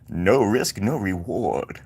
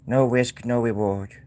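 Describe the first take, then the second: First: It is said in a sinister villain's voice. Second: It is said in an ordinary speaking voice.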